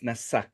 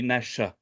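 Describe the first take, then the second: First: The middle consonant is an s sound. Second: The middle consonant is a sh sound. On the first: The dot is on the left side of the letter. "that dot is on the, the left side, so it's Nasa" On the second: The dot is on the right side of the letter. "It will be on the right side. Then it will be Nasha"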